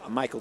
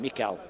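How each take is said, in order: First: The name is said with English sounds. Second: The name is said with Polish sounds.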